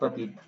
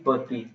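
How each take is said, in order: First: The word ends with a clear final t sound. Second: The word ends without a final t sound. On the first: The speaker calls it wrong. "not patit" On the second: The speaker calls it right. "First is pati"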